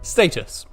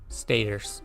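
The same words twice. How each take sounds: First: It is said in a British accent. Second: It is said in an American accent.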